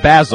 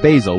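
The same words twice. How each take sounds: First: The name is said the British way. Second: The name is said the plain non-British way. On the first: "The pompous one said Basil over here" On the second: "you say it Basil, which is what I would say"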